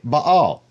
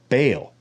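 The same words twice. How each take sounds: First: The name is said with Hebrew pronunciation. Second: The name is said with English pronunciation. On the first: "in Hebrew you say Baal" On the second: "When it comes into English, a lot of people say Baal"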